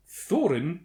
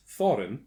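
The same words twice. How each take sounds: First: "Thorin" said as THOR-in, rising; "Thorin" with stress on THOR; Thorin pronounced. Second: "Thorin" said as THOR-in, falling; "Thorin" with stress on THOR, falling; Thorin pronounced. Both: Shown as a demonstration. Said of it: "pronounced Thorin".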